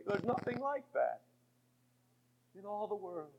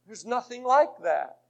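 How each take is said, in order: First: Dropped right down to almost nothing; quiet awe after the storm; hushed. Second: Said in the usual way. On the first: Acted. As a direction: let it fall to a near whisper. Hushed line after the shouting.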